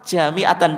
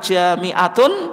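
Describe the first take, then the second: First: The word ends with an 'an' sound. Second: The word ends with an 'un' sound. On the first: The word is read in the accusative case. "Bisa juga dibaca mansub fathah" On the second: The word is read in the nominative case. "itu kalau dibaca marfu ya"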